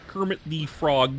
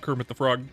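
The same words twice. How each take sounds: First: It is said in a Kermit the Frog voice. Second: It is said in his normal voice.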